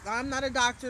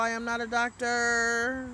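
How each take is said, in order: First: Said in the usual way. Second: Slow, every word weighted, "I am not a doctor" spelled out; emphatic disclaimer. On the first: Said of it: "Let me say that first of all". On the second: Shown as a demonstration. Streamer stressing to viewers she is no doctor, slow and emphatic. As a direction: lay it down firmly and slowly as a disclaimer. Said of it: "that's my disclaimer".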